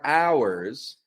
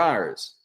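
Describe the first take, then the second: First: Every sound of the word is clearly articulated. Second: The word is reduced to sound like 'are'. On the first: The speaker calls it wrong. "A common mix-up is pronouncing the O U R, R, as our. That's very uh, like articulate" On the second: The speaker calls it right. "are, O U R, have the same pronunciation"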